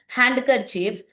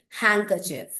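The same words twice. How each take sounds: First: Every written letter is sounded aloud. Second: One written letter is left silent. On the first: The speaker calls it wrong. "Don't call it" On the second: The speaker calls it right. "you should say"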